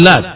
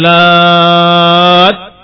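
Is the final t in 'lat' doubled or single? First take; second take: single; doubled. First: The final t is short and single. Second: The final t is held long and doubled. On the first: "dengan tanpa tasydid" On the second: "Karena taknya bertasydid. Maka dibaca dengan musaqqal"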